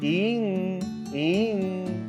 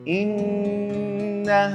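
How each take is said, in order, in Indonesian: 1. Dipotong-potong jadi bagian sengau yang berulang dan terpisah. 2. Langsung mengalir ke nun sengau yang ditahan. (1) "jangan in in" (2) "dari hamzah langsung lari ke nun gunnah"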